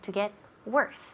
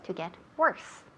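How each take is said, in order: First: The vowel in worse sounds like an E. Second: The same.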